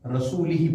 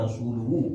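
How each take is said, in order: First: The word ends with 'i' vowels: rasulihi. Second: The word ends with 'u' vowels: rasuluhu. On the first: God is free of the idolaters and of his messenger. The speaker calls it wrong. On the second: God and his messenger are free of the idolaters. The speaker calls it right.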